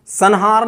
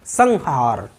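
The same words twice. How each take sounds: First: "संहार" said as san-haar, with an n; mispronunciation with n. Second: "संहार" said as sang-haar, with an ng; slow demo of "संहार" with ng before the h; velar nasal. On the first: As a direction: put a dental n before the h in "संहार". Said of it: "संहार नहीं बोलते इसको". ("संहार" में ङ की जगह न) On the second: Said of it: "इसी तरह तरह से संहार". ("संहार" में ङ की ध्वनि) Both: Shown as a demonstration.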